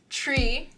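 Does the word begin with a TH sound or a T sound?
T sound. The word begins with a plain T sound.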